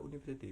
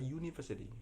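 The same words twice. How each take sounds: First: The word begins with a plain vowel sound. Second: The word begins with a 'y' glide sound. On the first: "Harusnya kan dibaca university, bukan?" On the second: "Tapi kita sebutnya dalam bahasa pronunciation-nya adalah university. Jadi U jadi U, jadi Y"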